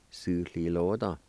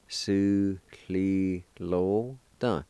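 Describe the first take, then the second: First: Said in the usual way. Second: Su cli lo dun drawn out very slowly, falling on dun; very slow model of Su cli lo dun; slow teaching pronunciation. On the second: Shown as a demonstration. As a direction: stretch Su cli lo dun out for learners. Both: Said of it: "is pronounced like this".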